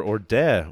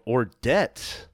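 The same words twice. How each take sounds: First: Orde with no final t; unsure pronunciation. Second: Ordet with the final t sounded; unsure pronunciation. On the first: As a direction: say Orde as or-DEH, open ending. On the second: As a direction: say Ordet as or-DET, questioning. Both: Shown as a demonstration. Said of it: "I don't know how to pronounce it".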